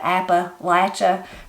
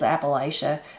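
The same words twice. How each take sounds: First: It is said the exaggerated southern regional way. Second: It is said the northern regional way. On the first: "farther south, we like those big exaggerated" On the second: "people maybe that was farther north, that's the way they learned how to say the word"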